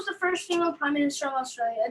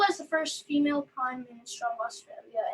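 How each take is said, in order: First: The question is read quickly. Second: The question is read at normal speed.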